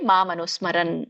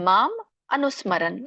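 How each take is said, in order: First: The two words run together as one. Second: The two words are said separately. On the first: "ಕೂಡಿ" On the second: "ಬಿಡಿಸಿ ಹೇಳ್ಬೋದು"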